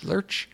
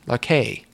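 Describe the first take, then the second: First: The name ends without a final vowel sound. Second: The name ends with a pronounced final vowel. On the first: The speaker calls it wrong. "I've been saying Lersch for a while" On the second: The speaker calls it right. "I think it's Larke because there's an accent on the E at the end"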